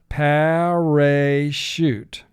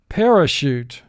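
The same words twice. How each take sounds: First: Each syllable is said with full, clear vowels. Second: The word is said naturally with reduced vowels.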